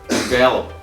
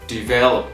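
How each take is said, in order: The two takes are said the same way.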